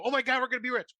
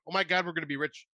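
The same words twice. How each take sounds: First: High, gushing fake joy; gleeful idiot parody; mock giddy excitement. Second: Said in the usual way. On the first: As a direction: ham up the campers' dumb glee. Mocking the campers' reaction.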